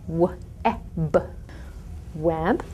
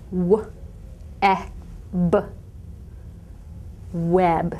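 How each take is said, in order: First: The sounds are separated by short pauses. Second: The sounds are separated by long pauses.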